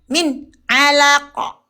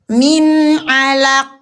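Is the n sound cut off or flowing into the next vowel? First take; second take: cut off; flowing. First: The n is closed off and cut short. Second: The n flows on with nasal resonance. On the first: The speaker calls it wrong. "Kenapa ditutup? Kenapa diputuskan?" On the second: The speaker calls it right. "Dibaca jelas"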